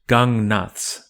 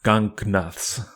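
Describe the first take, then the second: First: The g after ng is not fully sounded. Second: The g after ng is fully sounded. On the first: The speaker calls it right. "is not fully articulated before another nasal consonant" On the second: The speaker calls it wrong.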